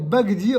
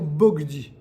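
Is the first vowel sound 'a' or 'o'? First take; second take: a; o. First: The first vowel is pronounced as 'a'. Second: The first vowel is pronounced as 'o'. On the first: The speaker calls it wrong. "au lieu de dire Bagdi" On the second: The speaker calls it right. "on va dire Bogdi"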